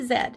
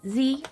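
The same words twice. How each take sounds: First: The letter is said the Canadian way. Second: The letter is said the American way.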